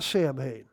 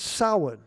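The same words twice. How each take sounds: First: The first vowel is not like 'ow' in cow. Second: The first vowel sounds like 'ow' in cow. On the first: The speaker calls it wrong. "It's not Samhain" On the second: The speaker calls it right. "with the O-W like a cow"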